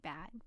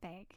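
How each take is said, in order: First: The vowel is a short a sound. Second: The vowel is a long a sound. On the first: The speaker calls it right. "I know it should be bag" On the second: The speaker calls it wrong. "like a long A. But it shouldn't be"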